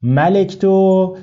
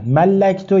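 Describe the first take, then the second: First: ملکتو as ma-lek-tu, one short L; ملکتو undoubled, "e" after the L, ending drawn out; single L. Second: ملکتو as mal-lak-tu, L held; doubled L. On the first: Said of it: "نه ملکتو". (ملکتو بدون تشدید، با کسرهٔ لام) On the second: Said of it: "به تشدید". (ملکتو با تشدید و فتحهٔ لام) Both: Shown as a demonstration.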